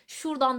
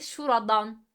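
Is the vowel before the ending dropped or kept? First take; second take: dropped; kept. First: The vowel before the ending is dropped. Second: The vowel before the ending is kept. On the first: The speaker calls it wrong. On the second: The speaker calls it right.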